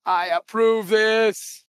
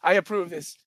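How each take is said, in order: First: Drawn out, every word stretched; slow solemn approval. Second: Said in the usual way. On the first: Acted. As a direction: stretch it out like a verdict.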